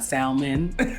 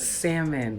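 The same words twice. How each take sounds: First: The L sound in the word is pronounced. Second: The L sound in the word is silent. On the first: The speaker calls it wrong. "still pronounce the L in salmon ... it's not salmon" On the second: The speaker calls it right. "it's salmon"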